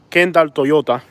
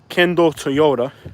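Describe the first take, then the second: First: It is said with a Cuban Spanish accent. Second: It is said with an English accent. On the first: "Cuban Spanish would be" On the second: "So English would be"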